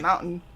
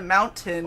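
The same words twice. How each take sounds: First: The middle T is dropped or swallowed. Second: The middle T is clearly pronounced. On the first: "we don't say T's" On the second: "it's not a mountain"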